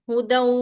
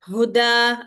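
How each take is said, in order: First: It ends with an n sound linked onward. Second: It ends on a long vowel without n. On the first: The reader continues into the next word. "If you are reading together" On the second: The reader stops after this word. "if you are stopping, you will read how huda, you will give two count and you will stop, you don't pronounce both the tanween"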